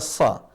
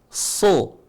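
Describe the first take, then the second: First: The vowel is a plain, light a. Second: The vowel is a full, clear o. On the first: "tidak dibaca sa" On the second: "Tapi tidak dibaca so"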